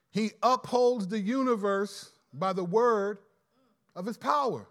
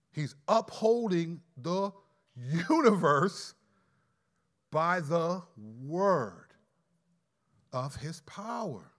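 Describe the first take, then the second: First: Said in the usual way. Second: "by the word" drawn out slowly, each word weighted; slow down and lean on "by the word"; slow stress. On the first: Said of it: "Not by his power, but by the word". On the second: Shown as a demonstration. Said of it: "He didn't just create the world".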